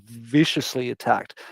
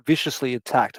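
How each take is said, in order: First: "viciously" stretched for emphasis; stress on viciously. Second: Said in the usual way. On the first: Real, not acted. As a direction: lean hard on "viciously", drawing out its first sound. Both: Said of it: "And I mean viciously attacked".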